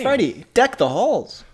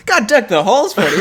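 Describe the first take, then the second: First: Slow, announcer-style radio host. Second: Laughing through the words. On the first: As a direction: read it like a DJ on air. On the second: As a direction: break into laughter mid-line. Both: Real, not acted. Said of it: "Why do I sound like, like a radio host?".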